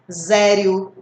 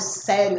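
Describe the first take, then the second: First: The word begins with a buzzing z sound. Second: The word begins with a hissing s sound. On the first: The speaker calls it wrong. "Ninguém vai ler assim" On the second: The speaker calls it right. "Vai ler com som de S"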